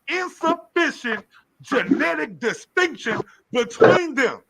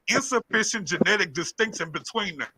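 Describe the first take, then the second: First: The phrase is read at a slower pace. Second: The phrase is read at a normal pace.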